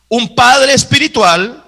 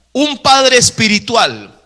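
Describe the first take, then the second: No difference in how they are said.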